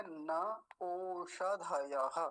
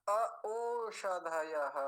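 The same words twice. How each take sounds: First: न ओषधयः joined smoothly, no extra अ; correct slow reading. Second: न अ ओषधयः with an extra अ sounded before ओषधयः; wrong avagraha reading. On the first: Shown as a demonstration. Teacher to students, slow correct न ओषधयः. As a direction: say न ओषधयः slowly without inserting अ. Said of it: "तो इसको छोड़ देंगे और क्या बोलेंगे". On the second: Retold or imitated. Teacher mimics a common mistake, slow mispronunciation. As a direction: mimic readers who voice the अ in अ ओषधयः. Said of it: "वो ऐसा बोलेंगे, जबकि ऐसा होता भी नहीं".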